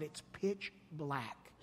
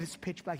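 First: Hushed and slow. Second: Said in the usual way. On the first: Retold or imitated. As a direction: draw it out in a hush, setting a dark scene. Retelling scary desert night.

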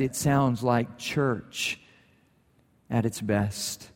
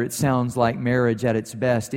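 First: Much softer and slower, savouring the words; softer, slower reflection. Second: Said in the usual way. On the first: Shown as a demonstration. The preacher gently applies the line to the church, quiet and slow. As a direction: let it settle, quietly and slowly.

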